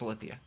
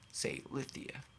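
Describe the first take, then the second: First: The first syllable is squeezed into 'sl'. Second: The first syllable is a full, separate 'say'. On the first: This is how the name is really said. "but it's Slithia" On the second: This helps with spelling the name. "that's how you pronounce it to be able to spell it"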